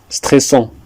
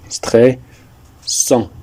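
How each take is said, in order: First: Said in the usual way. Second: "Stressant" broken in two, stres, pause, sant; teacher splitting "Stressant" with a pause before "sant"; syllable by syllable. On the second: Shown as a demonstration. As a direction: sound out "Stressant" slowly in separate parts.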